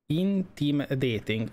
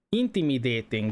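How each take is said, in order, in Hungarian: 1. Lassan olvassák, két részre bontva. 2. Egy sima, folyamatos szóként mondják.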